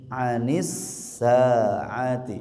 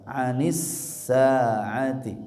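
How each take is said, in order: No difference in how they are said.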